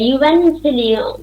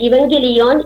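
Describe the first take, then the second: First: The word begins with a 'yoo' sound. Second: The word begins with an 'ee' sound. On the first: "അതിന്റെ യഥാർത്ഥ pronunciation" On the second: "ഇവാൻസ് എന്ന് പറയുന്ന വാക്കാണെങ്കിലും"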